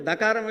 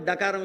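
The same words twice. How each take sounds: First: Tongue on the teeth to begin "దకారం"; clearly dental first sound in "దకారం". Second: "డకారం" with hard retroflex d; clearly retroflex first sound in "డకారం". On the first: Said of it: "దకారం వేరు". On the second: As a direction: curl the tongue back to begin "డకారం". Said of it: "డకారం వేరు". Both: Shown as a demonstration.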